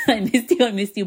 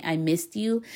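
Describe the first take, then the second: First: Higher and louder, laughing through it; laughing fondly. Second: Said in the usual way. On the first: Real, not acted. Telling her recovered voice she missed it, with a laugh. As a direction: laugh as you say it to your own voice.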